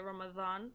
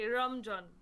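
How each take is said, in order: First: The middle consonant is a dh sound. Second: The middle consonant is a j sound. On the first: This is the Arabic way of saying it. "in Arabic uh, language you just say Ramadan" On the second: This is how people who cannot say z say it. "go fully in and say Ramjan"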